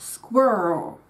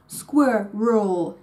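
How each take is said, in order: First: The word is squeezed into one syllable. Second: The word is said as two syllables. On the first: The speaker calls it wrong. "not with a single-syllable word" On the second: The speaker calls it right. "a two-syllable word"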